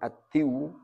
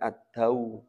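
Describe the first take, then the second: First: The d is followed by an i vowel. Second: The d is followed by an a vowel. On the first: The speaker calls it wrong. "Bukan ad-diw" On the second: The speaker calls it right. "Bacanya ad-daw"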